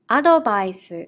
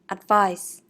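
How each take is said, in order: First: It is said with Japanese katakana pronunciation. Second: It is said with English pronunciation. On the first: "I will read in Japanese first" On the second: "meaning advice"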